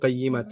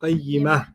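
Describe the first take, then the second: First: The word ends with a full -tun syllable. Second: The word ends softly with an h sound. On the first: The word is said without pausing on it. "we know already that it's kutubun qayyimatun" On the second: The speaker is pausing at this word. "when you stop there, it doesn't sound like a ta, it sounds like a ha"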